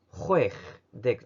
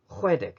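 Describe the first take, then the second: First: A ch sound comes right before 'deg'. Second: No ch sound comes before 'deg'. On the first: The speaker calls it wrong. "ホエフデグじゃなくて" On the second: The speaker calls it right. "終わりのこのシーエイチが抜けちゃってる"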